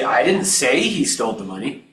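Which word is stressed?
say. The word 'say' carries the stress. It was implied rather than said outright. "I might have implied it"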